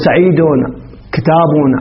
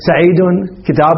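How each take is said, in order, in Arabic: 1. كل كلمة تنتهي بزيادة التنوين "-un". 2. كل كلمة تنتهي بحرف ساكن. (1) "نقول سعيدون كتابون عمرون" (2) "ممكن أن نقول بالوقف نقول سعيد كتاب محمد"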